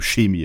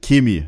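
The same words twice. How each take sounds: First: It is said the standard way, with soft ch. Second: It is said the Bavarian way, with hard k.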